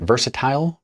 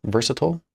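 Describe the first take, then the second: First: Questioning "Versatile?" as VER-suh-TILE, pitched up; higher, rising "Versatile?" that rhymes with tile; versatile ending like "tile". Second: Questioning "Versatile?" as VER-suh-tull, pitched up; higher, rising "Versatile?" with the last vowel swallowed; versatile ending like "tull". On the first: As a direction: try out "Versatile?" with a long i at the end. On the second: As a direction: try out "Versatile?" with a short "-tl" ending. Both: Shown as a demonstration. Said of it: "How do you say it?".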